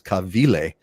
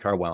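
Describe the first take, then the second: First: The name is said with a Hawaiian pronunciation. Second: The name is said with an English pronunciation. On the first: "If it's Hawaiian pronunciation, it's Kavile" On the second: "but it's a Dwayne Carwell"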